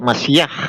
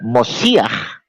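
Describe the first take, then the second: First: It is said with a Sephardic Hebrew pronunciation. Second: It is said with an Ashkenazi Hebrew pronunciation. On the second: "itu saya pakai logat Askenazi"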